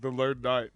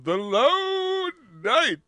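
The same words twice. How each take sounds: First: It is said in a plain, flat way. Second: It is said with grand, dramatic inflection.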